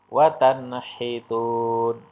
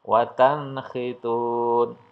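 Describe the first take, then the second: Both takes have the same delivery.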